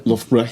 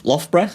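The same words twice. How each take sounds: First: "Loughborough" said as LUFF-bruh, with northern oo; corrected pronunciation. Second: "Loughborough" said tentatively as LOFF-bruh, rising; unsure pronunciation. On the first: Comic repeating co-host's version, "Loughborough" as LUFF-bruh. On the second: Comic naming his gig town, "Loughborough" unsurely as LOFF-bruh. First try, then corrected by co-host. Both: Real, not acted.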